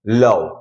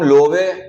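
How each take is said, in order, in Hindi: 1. स्वर 'uh' जैसा बोला जाता है, अंतिम e साइलेंट है। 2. स्वर 'oh' जैसा बोला जाता है, अंतिम e बोला जाता है। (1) "ओ को हम अ भी पढ़ते हैं और ई जो है वो साइलेंट रहेगा" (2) "ऐसा नहीं पढ़ेंगे"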